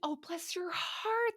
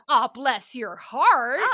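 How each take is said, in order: First: It sounds sweet and affectionate. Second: It sounds annoyed and disapproving.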